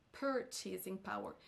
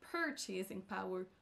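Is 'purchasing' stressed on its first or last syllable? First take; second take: first; first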